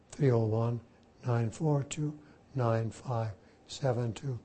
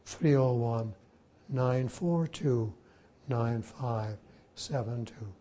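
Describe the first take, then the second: No difference in how they are said.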